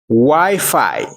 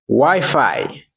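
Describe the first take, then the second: First: It is said with an English pronunciation. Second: The same.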